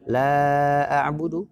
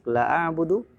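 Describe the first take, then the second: First: The vowel in 'la' is held long. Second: The vowel in 'la' is cut short. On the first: The speaker calls it right. "panjang la-nya" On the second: The speaker calls it wrong. "dibaca pendek"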